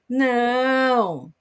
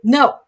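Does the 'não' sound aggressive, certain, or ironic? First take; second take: ironic; aggressive. First: A drawn-out no that sounds ironic. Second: A short, aggressive-sounding no.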